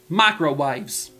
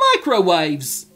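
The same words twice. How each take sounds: First: It is said in an Australian accent. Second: It slips into a British accent.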